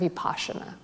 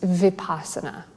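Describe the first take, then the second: First: It is said in the Sanskrit form. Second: It is said in the non-Sanskrit form.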